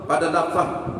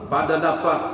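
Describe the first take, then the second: Both takes have the same delivery.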